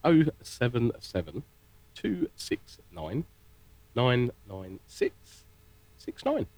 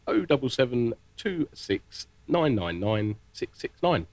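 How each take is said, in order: First: Number read out very slowly, digits in spaced groups. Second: Phone number in a brisker, connected run; a little quicker. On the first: Presenter reading the phone number slowly for listeners, very slow. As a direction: dictate it with long pauses between groups. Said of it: "really slow". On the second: Presenter repeating the phone number one more time, a little quicker. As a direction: rattle the digits off with fewer pauses. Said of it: "a little bit quicker this time". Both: Shown as a demonstration.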